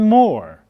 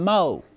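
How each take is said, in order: First: The final R sound is clearly pronounced. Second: The final R sound is dropped. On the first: "I said door, for, and more" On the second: "I didn't say dough and flow and mo"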